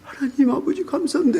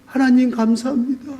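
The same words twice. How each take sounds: First: Fervent thanks. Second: Grateful prayer. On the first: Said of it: "했더니". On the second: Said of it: "그러면서". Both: Retold or imitated.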